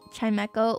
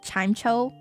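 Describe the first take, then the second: First: The middle consonant is a hard k sound. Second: The middle consonant is a soft ch sound. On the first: "with a hard K" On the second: "like you you you pronounce it Chimecho?"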